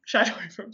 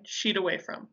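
First: "Shied away from" with Shied rhyming with ride; corrected "shied". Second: "shied away from" with shied said like "sheed"; mispronounced "shied". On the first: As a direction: say Shied as "shide", long i. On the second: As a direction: say shied as "sheed", rhyming with need. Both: Real, not acted.

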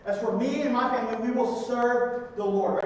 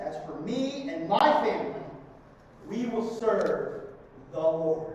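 First: Said in the usual way. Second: Solemn verse reading. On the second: Real, not acted. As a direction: let each word land.

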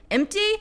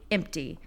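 First: EMPTY as a high rising question; surprised-sounding query on EMPTY. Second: EMPTY as a quiet, final confirmation; flat answer. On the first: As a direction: ask "Empty" high, voice lifting at the end. Poem's question, then answer. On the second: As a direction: answer "Empty" softly, dropping to a full stop. Poem's answer to own question. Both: Acted.

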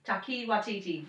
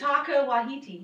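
First: "Taki Watiti" as TAH-kee wah-TEE-tee, settled version. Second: "Taka Wahiti" said slowly as TAH-kah wah-HEE-tee. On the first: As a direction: say "Taki Watiti" with a firm falling end. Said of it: "That's how I'll stick with it". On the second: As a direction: sound out "Taka Wahiti" carefully, first guess. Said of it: "I thought it was Taki". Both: Shown as a demonstration.

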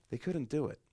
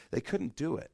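The two takes are said the same way.

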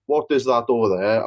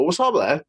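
First: Said in the usual way. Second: Slurred local shorthand for "what's up there"; words run together, sounds dropped; shortcut pronunciation. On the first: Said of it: "we don't pronounce our words properly". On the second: Shown as a demonstration. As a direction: squash the words into one quick run. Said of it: "we'll sort of, like, always find a shortcut".

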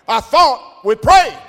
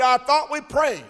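First: High, loud and slow, the word prayed rising; emphatic shout. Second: Indignant retort. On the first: Preacher voicing the healed man shouting back at him. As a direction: hammer it home as a shout. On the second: Man's retort in retold story. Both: Retold or imitated.

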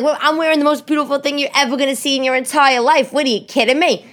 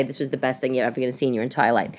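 First: High-pitched, indignant comic retort; mock indignation. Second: Low, hurried, deflated delivery; deflated retort. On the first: Wife answers her husband's slight, hammed-up indignation. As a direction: push it high in one outraged run. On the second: Retold or imitated. Hurt wife answering her husband, low and deflated. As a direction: rush it out low, with no fight. What she really said, feeling horrible.

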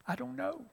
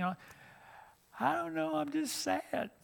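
First: Higher, softer small voice; a confused girl who can't explain her tears; meek girl. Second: Much higher, slow, soft sad voice; a girl lost in feelings she can't name. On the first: A crying girl answers the youth minister, small and soft. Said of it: "they said". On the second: A girl tells her youth minister she's just sad, slow and high. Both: Retold or imitated.

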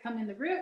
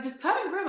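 First: Said in the usual way. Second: Higher-pitched retold urging; intense insistence. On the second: Friend urging her into the room, intense and insistent. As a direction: press the demand with a raised pitch. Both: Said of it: "it got super intense".

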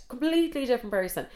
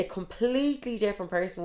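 First: COMPLETELY pitched high, then falling through "different person"; emphatic repeat. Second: Said in the usual way. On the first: Retold or imitated. Storyteller describing the catfish reveal, emphatic on "Completely". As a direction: lean high on "Completely" for disbelief.

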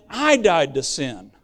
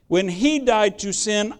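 First: "I" punched, then dropping low on "died to sin"; stress on I. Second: "he" lifted and leaned on as the key word; weight falls on "he", the rest plain; stress on he. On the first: Preacher to congregation, punching "I" in "I died to sin". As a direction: hit "I" hard, the rest falls away. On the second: Preacher to congregation, stressing "he" in "When he died to sin". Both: Shown as a demonstration. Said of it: "That's where my emphasis is".

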